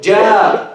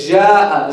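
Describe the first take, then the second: First: The j sound starts closed and cut off. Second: The j sound is soft and continuous. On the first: The speaker calls it right. "you start with it closed" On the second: The speaker calls it wrong. "You don't say ja"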